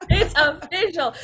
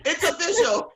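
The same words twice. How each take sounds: First: Louder, slower laughing "It's official"; slow, loud laughing agreement; emphatic laughing echo. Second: High, laughing declaration; amused high "It's official". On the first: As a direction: stamp it with a laugh. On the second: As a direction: say it while giggling. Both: Real, not acted.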